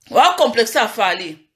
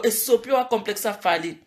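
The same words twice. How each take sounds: First: Wa complexe ya fali said slowly, wa hit; slow emphasis. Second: Said in the usual way. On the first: Shown as a demonstration. Vlogger hammering on [name]'s complex, slow emphasis.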